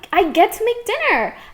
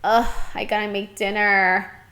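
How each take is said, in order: First: It is said with a cheerful, positive tone. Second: It is said with a reluctant, dreading tone.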